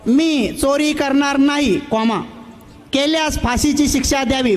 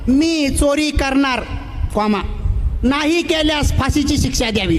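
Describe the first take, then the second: First: The pause comes after नाही. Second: The pause comes before नाही.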